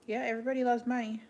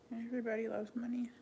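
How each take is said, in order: First: Said in the usual way. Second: "Everybody loves money" echoed much softer; quiet repeat. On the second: Real, not acted. Echoing her own remark to viewers, softly. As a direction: drop the volume and murmur "Everybody loves money" to yourself.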